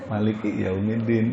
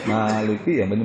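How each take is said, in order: First: The first vowel of the first word is short. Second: The first vowel of the first word is long. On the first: "ada juga yang pendek" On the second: "maknanya panjang"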